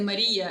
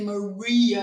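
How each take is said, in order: First: The name is said with a Ukrainian pronunciation. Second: The name is said with an American pronunciation. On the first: "I say Maria as you say in Ukraine" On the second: "I don't say Maria as you say in America"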